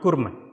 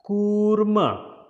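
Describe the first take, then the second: First: The u vowel is said short. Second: The u vowel is held longer. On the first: The speaker calls it wrong. "not kurma" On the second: The speaker calls it right. "that U sound will be little longer"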